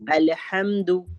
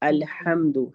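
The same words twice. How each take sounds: First: The h is a tight sound from the throat. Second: The h is a light, breathy sound. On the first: The speaker calls it right. "आवाज हलक के दरमियानी हिस्से से निकालनी है" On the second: The speaker calls it wrong. "बड़ी ह की जगह हम छोटी ह पढ़ देते हैं"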